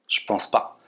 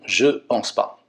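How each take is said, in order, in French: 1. Le mot 'je' est réduit et collé au mot suivant. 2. Le mot 'je' est prononcé en entier. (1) "encore plus familier" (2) "je vais dire non, je pense pas"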